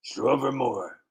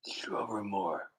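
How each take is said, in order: First: Said in the usual way. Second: Softer, slower re-read of the name; soft slow repeat. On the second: Shown as a demonstration. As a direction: try the name again gently, slowly.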